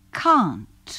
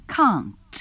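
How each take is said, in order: No difference in how they are said.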